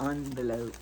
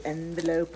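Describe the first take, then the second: First: Second "envelope" said AHN-velope; ON pronunciation. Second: First "envelope" said EN-velope; EN pronunciation. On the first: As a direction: begin "envelope" like the word "on". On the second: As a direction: begin "envelope" with "en", as in pen. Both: Shown as a demonstration. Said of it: "Do you say envelope or envelope".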